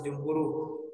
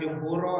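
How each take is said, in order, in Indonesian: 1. Kata itu berakhir dengan vokal u. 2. Kata itu berakhir dengan vokal o. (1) "Kenapa dibaca jumhuru?" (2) "Bukan jumhuro"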